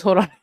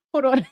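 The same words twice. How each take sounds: First: Said in the usual way. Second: Breaks into a laugh, pitched up high; giggling as she stalls; laughing through the words; laughing hold on. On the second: Real, not acted. Laughing at what she's watching.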